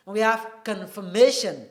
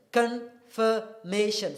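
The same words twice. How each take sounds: First: Said in the usual way. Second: "confirmation" медленно, по слогам; syllable by syllable. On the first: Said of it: "demo word". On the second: Shown as a demonstration. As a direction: stretch out "confirmation" slowly. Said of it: "four syllables".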